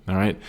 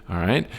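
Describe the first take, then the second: The two takes are said the same way.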